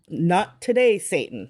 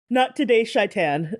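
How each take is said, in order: First: The last word begins with a plain s sound. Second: The last word begins with a sh sound. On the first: The speaker calls it wrong. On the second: The speaker calls it right.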